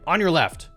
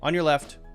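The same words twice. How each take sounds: First: It is said in a rude, impatient tone. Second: It is said in a plain, neutral tone. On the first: Get out of my way. The speaker calls it wrong. "maybe that's rude" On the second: Just letting you know I'm passing. The speaker calls it right. "letting you know, basically, no judgment"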